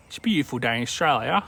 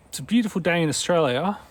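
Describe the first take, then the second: First: Quick, run-together Australian accent; put-on Australian accent at a brisk pace. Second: Higher-pitched, sing-song Australian accent; put-on Australian accent, unhurried. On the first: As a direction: rattle it off in broad Aussie. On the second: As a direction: play up the Aussie lilt, pitched up. Tries out the Australian phrase twice. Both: Shown as a demonstration.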